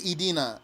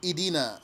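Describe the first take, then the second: No difference in how they are said.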